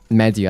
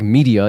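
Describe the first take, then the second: First: It is said with a non-English pronunciation. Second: It is said with the usual English pronunciation. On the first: It matches the pronunciation used in the game. "I think in myself, in my head, I think media" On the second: It is the ordinary English word. "I don't think media, even though it's an English word"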